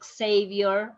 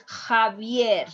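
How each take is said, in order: First: Xavier as "ex-SAY-vior"; English pronunciation. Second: Javier as "kha-VYEHR"; "Javier" starting on a Spanish J sound; correct Spanish pronunciation. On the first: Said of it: "don't tell him Xavier". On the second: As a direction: say "Javier" with a throat H. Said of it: "It's Javier". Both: Shown as a demonstration.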